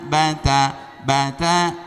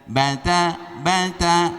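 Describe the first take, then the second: The two takes are said the same way.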